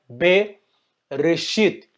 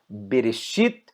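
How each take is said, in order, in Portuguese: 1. A palavra é dividida em partes separadas. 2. A palavra é dita junta, como uma unidade só. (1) "Não leia" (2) "leia como se fosse uma palavra só"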